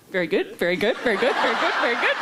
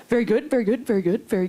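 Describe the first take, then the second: First: Rising, laughing self-mockery; mock starstruck repetition, breaking toward laughter; retold awkward gushing. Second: Repetitive fan, stepping gradually down; lightly mocked fan at a loss for words; imitating awkward fan. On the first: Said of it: "And I was like". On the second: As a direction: imitate an awkward stranger stuck on one phrase. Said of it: "And he kept saying".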